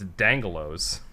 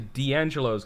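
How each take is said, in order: First: The D is joined straight onto Angelo. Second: The D is sounded apart from Angelo. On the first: The speaker calls it wrong. "if you just read it out and ignore that accent mark, then it's Dangelos" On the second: The speaker calls it right. "you're supposed to say D'Angelo's because it's got an accent mark between the D and the A"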